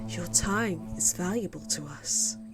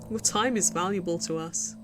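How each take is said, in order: First: It is said slowly in a creepy, robotic voice. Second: It is said in a natural, normal-paced voice. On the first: "creepy, like, oh, almost a robot voice" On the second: "I know I'm not saying it that way because it would be way too slow"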